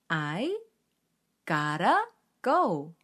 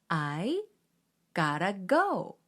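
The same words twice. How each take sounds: First: The words are linked smoothly as 'gotta'. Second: The words are linked smoothly as 'gotta'.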